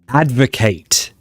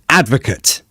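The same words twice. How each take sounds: First: It is pronounced the way the verb is. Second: It is pronounced the way the noun is. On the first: It is the action of supporting something. "But as a verb" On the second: It names a person who supports something. "As a noun"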